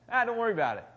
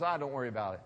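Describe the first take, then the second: First: Louder, higher, breezy dismissal; breezy brush-off. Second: Said in the usual way. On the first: Retold or imitated. Pastor mimics brushing off a friend's huge problem, breezy and louder. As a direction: toss it off lightly, as if nothing's wrong. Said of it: "You're like". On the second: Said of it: "American equivalent is".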